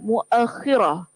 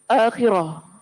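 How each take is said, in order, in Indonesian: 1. Vokal a mengikuti hamzah; kh digandakan. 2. Kata ini dimulai dengan vokal a panjang. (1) "dengan memfathahkan huruf hamzah" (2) "dengan memanjangkan huruf hamzah"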